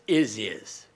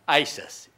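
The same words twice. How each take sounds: First: It is pronounced as the word is spelled. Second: It is pronounced the way television says it. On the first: The speaker calls it right. "Pronounce it like we spell in the United States" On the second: The speaker calls it wrong. "they call it on television"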